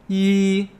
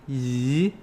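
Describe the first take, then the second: First: The pitch stays high and level. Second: The pitch rises from low to high. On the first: It means one. "first tone easy, right? ... As in one" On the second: It means an aunt on the mother's side. "Second tone. ... As in aunts on your mom's side"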